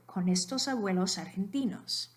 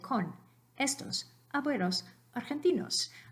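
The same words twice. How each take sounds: First: The words run together like one word. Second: Each word is said separately with breaks. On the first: The speaker calls it right. "I said it as if it were all one word" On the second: The speaker calls it wrong. "I didn't say con estos abuelos argentinos"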